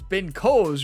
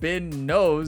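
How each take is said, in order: First: The surname begins with a K sound. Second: The surname begins with an N sound. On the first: The speaker calls it right. "It's a K, Ryan. It's not an N" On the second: The speaker calls it wrong. "I don't know why I said Ben Knows"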